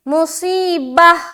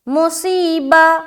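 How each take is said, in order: First: The word ends with a clear audible h. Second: The word ends on a vowel with no h. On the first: The speaker calls it right. "हा साफ और वाज़ेह तौर पर निकल के आनी चाहिए" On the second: The speaker calls it wrong. "हा अदा नहीं होता ना, तो इस तरह की साउंड आती है"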